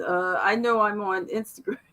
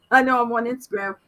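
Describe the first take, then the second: First: Said in the usual way. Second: Laughing, louder and quicker. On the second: Real, not acted. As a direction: laugh through the repeat. Laughs at own repeated line.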